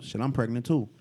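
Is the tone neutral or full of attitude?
neutral. It is said in a plain, neutral tone.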